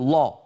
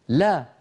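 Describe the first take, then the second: First: The L is heavy, with a dark, full sound. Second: The L is light, with a thin, clear sound. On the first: "ولا يقول" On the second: "مرققة"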